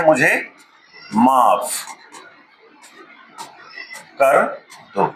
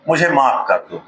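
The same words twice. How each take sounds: First: "मुझे माफ कर दो" with long pauses between words; slow spaced demo. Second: Said in the usual way. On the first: Shown as a demonstration. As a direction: drop each word in slowly, one at a time. ("मुझे माफ कर दो" रुक-रुक कर, हर शब्द अलग) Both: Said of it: "क्या बोलते हैं?".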